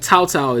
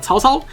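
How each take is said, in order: First: The name is said with an English accent. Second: The name is said with native Mandarin pronunciation. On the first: The speaker calls it wrong. "I don't know why I'm pronouncing it with an accent" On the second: The speaker calls it right. "I can actually say it properly"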